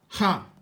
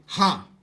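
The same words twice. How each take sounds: The two takes are said the same way.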